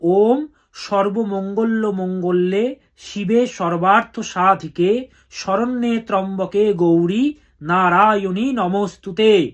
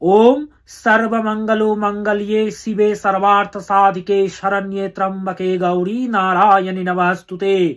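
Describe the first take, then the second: First: It is pronounced with Bengali sounds. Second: It is pronounced with pure Sanskrit sounds. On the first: "বাংলায় উচ্চারণ করতে গেলে বলবেন" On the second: "pure সংস্কৃতে করতে গেলে"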